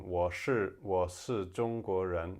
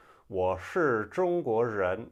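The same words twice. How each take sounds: First: Said in the usual way. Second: Strong Beijing r-colouring, slow and loud; Beijing accent. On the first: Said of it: "instead of saying". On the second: Shown as a demonstration. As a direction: curl the r hard, Beijing style. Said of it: "in Beijing".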